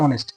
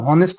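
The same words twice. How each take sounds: First: অনেস্ট with no h, starting on the o vowel; silent h. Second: হনেস্ট with the h clearly sounded; wrong pronunciation. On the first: Teacher shows students the right way, silent h. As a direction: drop the h and say অনেস্ট. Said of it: "এটা উচ্চারণ হচ্ছে অনেস্ট". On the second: Teacher shows students the wrong way, h pronounced. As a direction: say হনেস্ট with a breathy h at the start. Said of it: "এটা কিন্তু হনেস্ট না". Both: Shown as a demonstration.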